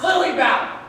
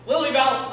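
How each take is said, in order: First: Louder, higher snap of her name; sharp warning shout. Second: Loud, firm naming before an order; stern prompting. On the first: Sibling answering Lily Bell's refusal, commanding shout. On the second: Sibling ordering Lily Bell to apologize, stern raised voice. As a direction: call her to order firmly. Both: Acted.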